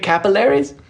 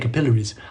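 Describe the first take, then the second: First: The word has an American pronunciation. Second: The word has an Australian pronunciation. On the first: "do Americans say capillaries?" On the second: "I say capillaries"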